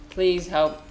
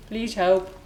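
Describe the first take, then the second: No difference in how they are said.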